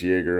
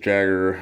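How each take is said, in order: First: The name is said like "Yay-ger". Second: The name is said like "Jagger". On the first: The speaker calls it right. "I think it's Jaeger" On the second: The speaker calls it wrong. "I don't think it's Jagger"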